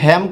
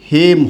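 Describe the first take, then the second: First: The vowel is an open 'ae' sound. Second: The vowel is a plain 'e' sound. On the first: The speaker calls it wrong. "এটার উচ্চারণ হ্যাম কখনোই হবে না" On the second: The speaker calls it right. "হেম হবে"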